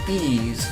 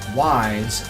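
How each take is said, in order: First: It is said with an 'ee' vowel and no 'w'. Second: It is said with a 'w' and an 'eye' vowel. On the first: The speaker calls it right. "by saying it as ease, like in please" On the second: The speaker calls it wrong. "it's not proper to pronounce it wise, as in why do I care?"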